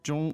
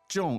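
First: The word is said with the first tone. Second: The word is said with the fourth tone. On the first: It means medium. "which is medium, meaning first" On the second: It means heavy. "重 is fourth tone"

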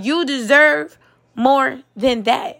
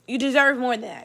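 First: It is said loudly and forcefully. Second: It is said at a quieter, normal volume. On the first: The speaker calls it right. "I'm gonna say it louder" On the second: The speaker calls it wrong. "I didn't say it loud enough the first time"

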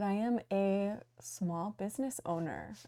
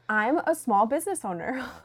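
First: It is said hesitantly, without confidence. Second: It is said firmly, with confidence. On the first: The speaker is unsure about the claim. The speaker calls it wrong. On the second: The speaker stands behind the claim. The speaker calls it right.

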